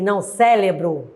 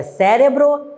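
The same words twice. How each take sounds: First: Cérebro said sé-le-bro, with l for r; cérebro mispronounced with an l sound, sélebro; wrong form. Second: Cérebro said with r, sé-re-bro; cérebro with a clear tapped r in the middle; correct form. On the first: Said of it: "e não cérebro". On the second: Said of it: "O certo é cérebro". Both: Shown as a demonstration.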